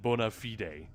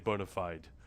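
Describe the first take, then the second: First: It is pronounced the classical Latin way. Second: It is pronounced the common English way. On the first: "that would be the Latin pronunciation" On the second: "Most people don't say that; they say bona fide"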